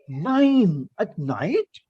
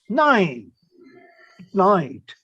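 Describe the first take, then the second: First: The voice rises at the end. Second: The voice falls at the end.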